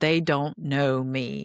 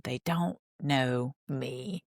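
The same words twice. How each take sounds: First: It is said at a normal speed. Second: It is said very slowly, dramatically, like Cody.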